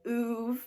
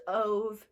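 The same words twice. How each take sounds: First: Uve said with a long "oo" at the start. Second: Ove said with a long O as in "stove". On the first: Retold or imitated. Vlogger copies the audiobook narrator, Uve with an oo. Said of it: "The narrator of the book thinks that it's". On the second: Shown as a demonstration. Vlogger guesses at a book's name, Ove with an O. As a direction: say Ove starting on an O sound. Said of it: "I wanna say it's Ove".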